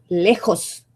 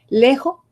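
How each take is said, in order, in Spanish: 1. La s final se pronuncia. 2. La s final se omite. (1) "La palabra correcta es lejos" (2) "Hay cantidad de regiones donde se comen la S"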